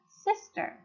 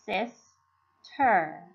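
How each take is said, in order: First: Said in the usual way. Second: "sis-ter" in two separate syllables, pause between; split into syllables. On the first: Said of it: "then they can put it together". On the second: Shown as a demonstration. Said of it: "pronounce the first syllable first".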